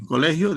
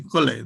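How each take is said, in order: First: Said in the usual way. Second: "cole" said as two syllables, the end of colegio dropped; "cole" cortado a la mitad; clipped half word. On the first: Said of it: "En vez de decir". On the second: Shown as a demonstration. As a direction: clip colegio down to "cole", Cochabamba style. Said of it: "en pronunciar a mitad".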